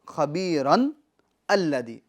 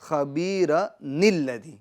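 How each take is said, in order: First: The words stay separate, ending in a plain 'n'. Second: The words run together through an added 'ni' sound. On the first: This is the underlying form before the rule applies. "असल में क्या था?" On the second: This is the form used when the words are connected. "मिलाने की सूरत में"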